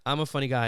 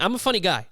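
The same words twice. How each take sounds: First: Said in the usual way. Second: Higher, louder playful boast; tongue-in-cheek bragging; mock boast. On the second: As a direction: puff it up like a proud joker. Self-mocking boast.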